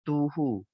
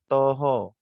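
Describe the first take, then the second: First: The vowels sound like u. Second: The vowels sound like o. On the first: The speaker calls it right. "dia akan bunyi dia u eh" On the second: The speaker calls it wrong. "kadang-kadang kita terbaca jadi o"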